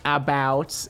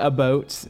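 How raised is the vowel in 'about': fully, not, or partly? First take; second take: Not; Partly. First: The vowel is not raised, standard American. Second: The vowel is partly raised, slightly Canadian. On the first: This is the ordinary non-Canadian way. "but not about" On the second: This is the speaker's own inherited Michigan way. "which is why I say about"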